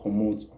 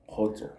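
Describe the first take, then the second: First: "Khomotso" in three syllables, kho-mo-tso; corrected name. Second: "Khotso" said short, missing the middle syllable; wrong name. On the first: Vlogger corrects the TikTok creator's name, "Khomotso". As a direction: say "Khomotso" carefully, fixing the slip. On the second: Vlogger misnames a TikTok creator, "Khotso". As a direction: slip and say "Khotso" before correcting. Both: Real, not acted. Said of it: "No, not Khotso".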